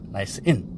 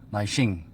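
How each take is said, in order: First: The two words are said separately. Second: The two words are run together as one. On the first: The speaker calls it right. "꼭 영어를 쓰시려면은 나이스 인 이라고 사용하시는 게 좋겠죠" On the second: The speaker calls it wrong. "나이싱 이렇게 말씀하시는 분들이 종종 있습니다"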